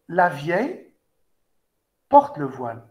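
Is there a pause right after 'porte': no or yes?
no. There is no pause after 'porte'. An old woman wears the veil.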